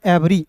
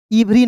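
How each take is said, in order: First: एवरी starting with "e", not "i"; correct pronunciation. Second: इवरी starting with "i" for the E; wrong pronunciation. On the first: Teacher telling learners how to read EVERY, correct pronunciation. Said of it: "इसे पढ़ना है एवरी". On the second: Teacher telling learners what not to read, wrong pronunciation. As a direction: say इवरी, the misread "ivri". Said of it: "इवरी नहीं पढ़ना". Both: Shown as a demonstration.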